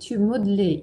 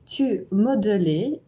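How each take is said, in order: First: The middle e vowel is dropped, said simply. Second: The middle e vowel is pronounced, said slowly. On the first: "Теперь попроще" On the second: "давайте сначала медленно прочтем"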